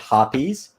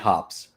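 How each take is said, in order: First: The name is said with two syllables. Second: The name is said with one syllable. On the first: The speaker calls it wrong. "I've always pronounced it hoppies" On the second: The speaker calls it right. "I know it's supposed to be hops"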